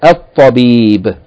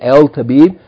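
First: The L merges into a doubled T sound. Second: The L sound is pronounced before the T. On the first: The speaker calls it right. "We say الطبيب" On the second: The speaker calls it wrong. "because ta is a sun letter, we don't say الطبيب"

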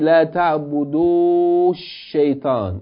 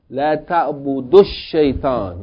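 First: The final vowel of ta'budu is held long. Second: The final vowel of ta'budu is cut short. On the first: The speaker calls it wrong. "So you don't say" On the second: The speaker calls it right. "Like it's a short vowel"

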